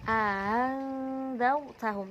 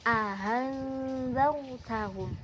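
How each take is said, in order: Both takes have the same delivery.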